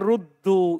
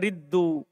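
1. Vokal pertama bunyinya 'oo'. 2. Vokal pertama bunyinya 'ee'. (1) "Seharusnya kan ruddu, itu yang kuat" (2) "Ini dibaca riddu, yang tidak kuat"

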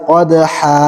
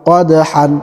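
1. শব্দটি একটি দীর্ঘ a স্বরধ্বনি দিয়ে শেষ হয়। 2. শব্দটি একটি n ধ্বনি দিয়ে শেষ হয়। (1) "ওয়াকফ করলে" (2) "হা আলিফ দুই জবর হান"

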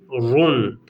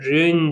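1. Hece kalın bir ünlüyle okunuyor. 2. Hece ince bir ünlüyle okunuyor. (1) "run kalın" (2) "rün değil"

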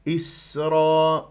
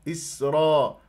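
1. صوت السين فيه صفير واضح وقوي. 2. صوت السين فيه صفير ضعيف وخافت.

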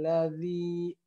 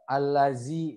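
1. Konsonan tengahnya adalah bunyi th yang lembut. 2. Konsonan tengahnya adalah z yang berdengung. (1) "ini huruf zal" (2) "nyasai ke huruf zai"

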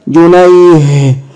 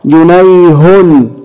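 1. يُنطق الحرف h بدون أي حركة. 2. تأتي بعد الحرف h حركة. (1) "سكن" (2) "هنشكلها مرة"

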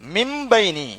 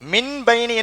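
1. b க்கு முன் m ஒலி சொல்லப்படுகிறது. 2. b க்கு முன் தெளிவான n ஒலி சொல்லப்படுகிறது. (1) "நூனை உச்சரிக்க கூடாது. இந்த நூனை இந்த மீமில் குத்தி மிம்பைனி என்று உச்சரிக்கும்" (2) "மின் பைனி என்று ஓதுனா பிழை"

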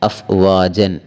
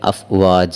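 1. ഈ പദം 'n' ശബ്ദത്തിലാണ് അവസാനിക്കുന്നത്. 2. ഈ പദം നീണ്ട 'a' സ്വരത്തിലാണ് അവസാനിക്കുന്നത്. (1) "ഫതഹിൻ്റെ തൻവീനാണ് വഖഫ് ചെയ്യേണ്ട അക്ഷരമായി വന്നതെങ്കിൽ ഉദാഹരണം" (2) "ഇവിടെ അഫ്വാജ എന്ന രീതിയിലാണ് വഖഫ് ചെയ്യേണ്ടത്"

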